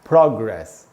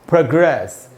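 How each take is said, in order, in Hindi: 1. पहले अक्षर को ज़्यादा देर तक खींचकर बल दिया जाता है। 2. दूसरे अक्षर को ज़्यादा देर तक खींचकर बल दिया जाता है। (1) "प्रो में जो ओ है उसी पर ज्यादा देर तक रुकना है" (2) "ए पर ज्यादा देर तक रुकना है"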